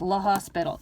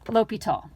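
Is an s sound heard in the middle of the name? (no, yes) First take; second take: yes; no. First: The name is said with an s sound. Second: The name is said without an s sound. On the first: The speaker calls it wrong. "it's not pronounced La Hospital" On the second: The speaker calls it right. "It is pronounced L'Hopital"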